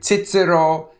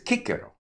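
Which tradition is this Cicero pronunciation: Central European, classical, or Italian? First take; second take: Central European; classical. First: It uses the Central European pronunciation of C. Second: It uses the classical pronunciation of C, like K. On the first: This is how Central Europeans say it. "Central Europeans say Cicero" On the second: This is the ancient pronunciation. "whereas presumably it's Cicero"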